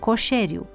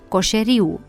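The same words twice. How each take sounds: First: The stress falls on the e. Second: The stress falls on the i. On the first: The speaker calls it right. "sufixul de agent accentuat ar-er" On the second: The speaker calls it wrong. "Deplasarea accentului"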